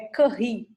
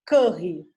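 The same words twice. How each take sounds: First: The name is said with French pronunciation. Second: The name is said without French pronunciation. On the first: The speaker calls it right. "como ela é francesa, é Curie também, igual Marie" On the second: The speaker calls it wrong. "a tia Georgia lá no primeiro vídeo falou Marie, Marie Curie"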